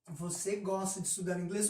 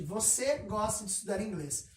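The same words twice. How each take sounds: First: It is said as a question, rising. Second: It is said as a statement, falling.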